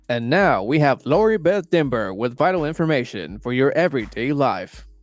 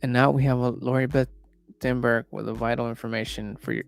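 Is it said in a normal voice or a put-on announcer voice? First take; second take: put-on voice; normal voice. First: It is said in an imitated announcer voice. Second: It is said in the speaker's normal voice.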